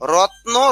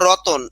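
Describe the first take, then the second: First: The t and n sounds join with no vowel. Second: An extra vowel is heard between t and n.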